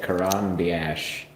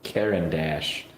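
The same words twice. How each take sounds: First: Caran d'Ache, said slowly and unsure, "kuh-RAHN dee-ASH"; unsure pronunciation. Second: Caran d'Ache, said slowly as "KARE-un DASH"; slow, careful Caran d'Ache as "KARE-un DASH"; corrected pronunciation. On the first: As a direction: feel your way through Caran d'Ache, syllable by syllable, guessing. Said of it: "I don't know how to say it". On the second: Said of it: "Now that you know how to say it". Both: Real, not acted.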